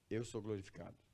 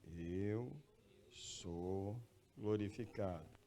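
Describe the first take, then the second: First: It is said at normal speed. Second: It is said very slowly.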